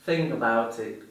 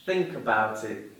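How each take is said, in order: First: "think" said with no k at the end; dropped final k. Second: "Think" with a clear final k sound; exaggerated word endings. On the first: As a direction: let "think" end on the ng sound. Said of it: "If I didn't pronounce the final consonant letter". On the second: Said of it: "another example". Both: Shown as a demonstration.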